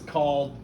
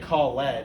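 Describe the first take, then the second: First: The ending joins the word as one syllable. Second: The ending is pronounced as a separate syllable. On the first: The speaker calls it right. "It says called" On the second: The speaker calls it wrong. "It doesn't say call ed"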